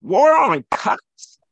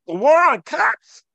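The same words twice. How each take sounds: First: Slow, louder, incredulous "War on cops?"; scornful echo. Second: Higher and louder, hammering the phrase; emphatic outburst. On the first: Mocking the phrase before the host cuts in, slow scornful disbelief. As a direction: drag out "War on cops?" as if it were absurd. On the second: Debating the host on race, a loud emphatic outburst. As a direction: fire the words "The war on cops" out as an accusation. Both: Real, not acted.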